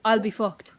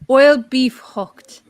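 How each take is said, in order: First: The three words are said quickly and run together. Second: The three words are said slowly and separately.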